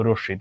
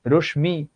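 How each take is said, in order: First: রশ্মি as "roshshi", sh doubled and m silent; রশ্মি with a long sh; correct doubled sound. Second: রশ্মি as "rosh-mi", m fully sounded; রশ্মি split into rosh and mi; wrong spelling pronunciation. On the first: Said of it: "তুমি নিজেই তো জানো এটার উচ্চারণ". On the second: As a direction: pronounce the written m in রশ্মি. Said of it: "তুমি তো বলো না". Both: Shown as a demonstration.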